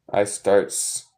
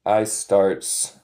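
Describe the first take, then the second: First: "I starts." read out again for the class; plain repeat of "I starts."; repeat quiz. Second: "I starts." read out as a test item; quiz sentence. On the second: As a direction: read "I starts." for them to judge. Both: Shown as a demonstration. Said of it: "is this correct or incorrect?".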